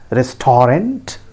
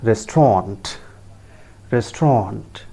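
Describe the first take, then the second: First: "restaurant" drawn out in full, RES-TOR-ANT, slow; slow wrong restaurant. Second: "restaurant" said RES-tront, two syllables; correct restaurant. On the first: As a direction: spell out every syllable of "restaurant". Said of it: "that is not the correct pronunciation". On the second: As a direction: clip "restaurant" to two beats. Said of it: "It is pronounced as". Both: Shown as a demonstration.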